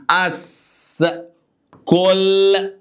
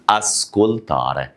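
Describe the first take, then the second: First: "اسكولتاري" split as as, kol, taa-reh, slow and high; syllable-by-syllable model. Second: "اسكولتاري" slow but joined, as-kol-taa-reh, low; joined-up model pronunciation. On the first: Teacher asks what it becomes, sounding out "اسكولتاري" slowly in raised, separate syllables. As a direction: hold each chunk of "اسكولتاري" on a raised pitch. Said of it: "يبقى إيه؟". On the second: Teacher repeats the verb for listen, "اسكولتاري" slow, low and connected. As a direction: say "اسكولتاري" as one measured word, pitch lowered. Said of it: "بص، اسكولتاري".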